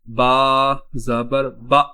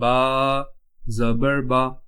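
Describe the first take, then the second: First: The final vowel is cut off with a jolt. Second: The final vowel is short and smooth. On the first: The speaker calls it wrong. "हम इसको झटका दे दें" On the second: The speaker calls it right. "बगैर खींचे पढ़ना है"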